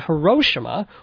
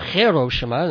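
First: The name is said in an English way. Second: The name is said the way locals say it.

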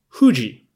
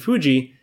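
First: The word begins with an H sound. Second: The word begins with an F sound. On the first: "it's written as H-U-J-I, which is Fuji" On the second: "the F pronunciation, Fuji"

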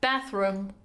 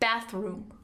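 First: The oo vowel in room is short. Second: The oo vowel in room is long. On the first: "اوه کوتاه" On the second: "یعنی قشن اوه کشیده bathroom"

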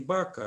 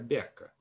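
First: The first consonant is hard, not palatalized. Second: The first consonant is soft, palatalized. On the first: This is the old form of the word. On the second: This is how the word lives on today.

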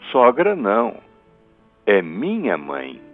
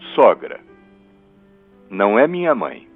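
First: There is a pause after 'não'. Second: There is a pause after 'sogra'.

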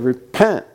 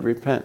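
First: The word is said firmly as a command. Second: The word is said softly and tentatively. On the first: It is an order that must be obeyed. The speaker calls it right. "It's a command" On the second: It is offered as an optional suggestion. The speaker calls it wrong. "No, he didn't say it that way"

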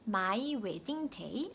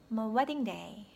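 First: The word my is said fully and clearly. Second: The word my is weak and barely heard.

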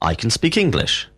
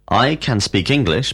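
First: It is said quickly with reduced forms. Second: It is said slowly with full forms.

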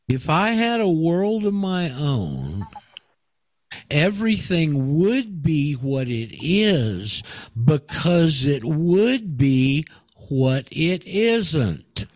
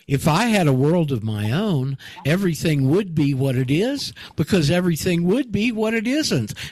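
First: It is read more slowly. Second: It is read at a normal pace.

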